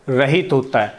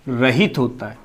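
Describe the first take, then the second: No difference in how they are said.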